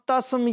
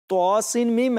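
First: The letters are blended into one short word. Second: Each letter is said separately by its name. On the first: The speaker calls it wrong. "इसको हम तस्म या तेस्म या तोस्म नहीं पढ़ सकते कि सिर्फ साउंड बन जाए, गलत हो जाएगा" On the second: The speaker calls it right. "हर हरफ को अलग अलग पढ़ेंगे"

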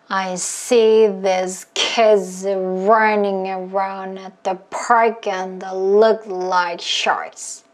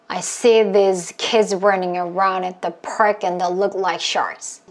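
First: It is said slowly. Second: It is said at moderate speed.

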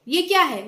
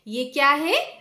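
First: It is said fast and hurried. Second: It is said slowly and calmly.

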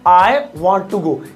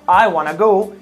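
First: Want to is said as two separate words. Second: Want to is blended into one word, wanna. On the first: It is standard English. "यहां पर वांट और टू एकदम अकेले हैं" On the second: It is casual, stylish English. "इन्हें मिला दो वाना तो हो जाएगा"

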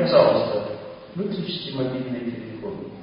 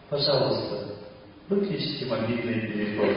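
First: The request sounds pushy and emotionally pressing. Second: The request sounds calm and free of pressure. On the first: The speaker is forcing compliance. The speaker calls it wrong. "Я надавил на вас все" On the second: The speaker is not attached to whether it is done. The speaker calls it right. "Вот давайте сейчас я попробую"

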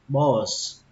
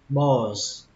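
No difference in how they are said.

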